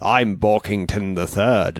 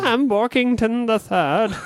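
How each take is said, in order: First: The voice is low and deep, more masculine. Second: The voice is higher, like a young child. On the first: This is how it sounds as an adult. "I could do that. I'm Borkington the Third now" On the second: This is how it sounded as a child. "but back then I was"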